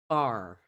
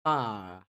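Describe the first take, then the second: First: American "bar" with a full r; American pronunciation. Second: British "bar" with silent r; non-rhotic British bar; British pronunciation. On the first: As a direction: say bar with a strong final r. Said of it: "ele é amplamente pronunciado". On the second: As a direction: say bar as "bah". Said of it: "esse som de R desapareça". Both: Shown as a demonstration.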